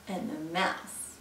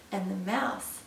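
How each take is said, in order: Both takes have the same delivery.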